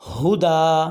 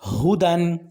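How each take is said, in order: First: The word ends with a long drawn-out a. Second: The word ends with a short a and n.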